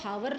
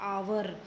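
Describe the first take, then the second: First: It begins with an audible h sound. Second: It begins with a vowel, no h sound. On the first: The speaker calls it wrong. "इसको हावर नहीं बोलते" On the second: The speaker calls it right. "एच की आवाज़ नहीं आती है"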